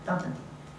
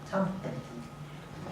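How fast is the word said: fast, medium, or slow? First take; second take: fast; medium. First: It is said quickly at full speed. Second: It is said at a moderately quicker pace. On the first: "now we'll do it at full speed" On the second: "we'll say it a little bit faster"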